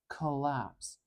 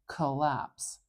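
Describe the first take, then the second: Both takes have the same delivery.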